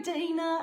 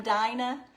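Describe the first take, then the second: First: "Dina" said DEE-nuh, with an ee sound; corrected name. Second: "Dinah" said DIE-nuh, long i, rising question; checking a name. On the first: Host correcting herself to viewer's DEE-nuh. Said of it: "And y'all pronounce Dina". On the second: Host asking viewer if her name is DIE-nuh, questioning rise. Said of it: "is that how you pronounce your name". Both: Real, not acted.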